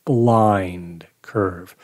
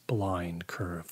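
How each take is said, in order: First: Said in the usual way. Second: Hushed whisper, breathy and low. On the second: A narrator's reading. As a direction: breathe it out, barely voiced. Narrator repeats phrase, first hushed.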